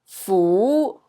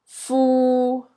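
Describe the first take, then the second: First: The syllable is said in Cantonese tone two. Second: The syllable is said in Cantonese tone three. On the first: "B is tone two" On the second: "And D is tone three"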